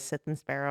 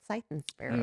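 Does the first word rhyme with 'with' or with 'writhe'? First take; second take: with; writhe. First: The first word has a short 'i' vowel. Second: The first word has an 'eye' vowel. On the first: The speaker calls it wrong. "I called it Sith" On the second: The speaker calls it right. "it was definitely a scythe"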